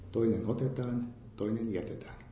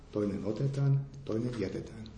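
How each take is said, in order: Both takes have the same delivery.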